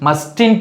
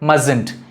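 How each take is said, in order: First: The first t sound is pronounced. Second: The first t sound is left silent. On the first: The speaker calls it wrong. "mustn't கிடையாது" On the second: The speaker calls it right. "இந்த T வந்து silent"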